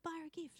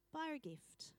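First: High, voiced echo of an order; mock incredulous repeat; disbelieving echo. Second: Soft, breath-only whisper; hushed instruction; whispered prompting. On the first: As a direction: parrot it back in protest. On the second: Acted. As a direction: whisper it like an inner nudge. God's quiet prompting, acted out.

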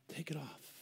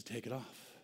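First: Whispered command; whispered repeat; whispered Jesus. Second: Soft, gentle command; low gentle voice of Jesus; hushed Jesus. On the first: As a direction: whisper it, gentle but firm. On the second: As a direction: say it softly, like Jesus speaking. Jesus quoted softly. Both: Acted.

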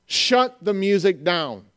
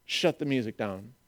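First: Slow, deliberate order; firm command. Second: Low, very soft order; hushed command. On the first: Jesus repeating his order to halt worship, slow and firm. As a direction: space out every word with authority. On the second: Jesus halting worship over the missing people, hushed and low. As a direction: drop right down to stop everything. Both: Acted.

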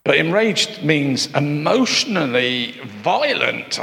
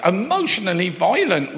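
First: Said in the usual way. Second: "Emotionally violent" lifted higher with a falling finish on "violent"; emphatic. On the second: Shown as a demonstration. Preacher repeating the definition to the church, emphatic and higher. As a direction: ring out "Emotionally violent" higher, landing hard on "violent". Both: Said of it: "the word enraged means this".

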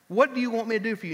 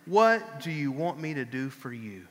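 First: Quicker, brighter repeat. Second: Gentle question. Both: Acted.

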